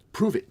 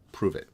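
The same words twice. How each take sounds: First: High, loud, incredulous repeat; indignant echo. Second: Said in the usual way. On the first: A narrator's reading. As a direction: throw it back in outraged disbelief.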